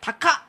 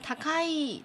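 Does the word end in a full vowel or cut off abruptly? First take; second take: cut off; full vowel. First: The word stops short with an abrupt cut-off. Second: The word ends with a full final vowel. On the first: "更口语的说法来讲taka，就停在一个地方，然后后面加一个促音" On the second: "本来是takai，就是很贵的、很高的意思嘛"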